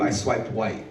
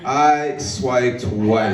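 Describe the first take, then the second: First: Dropped low and soft; understated punchline. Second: Drawn-out repeat. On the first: Boyfriend to girlfriend after getting off, understated low punchline. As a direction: let the punchline fall away quietly. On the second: Comic repeating punchline to the crowd, very slow drawl. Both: Acted.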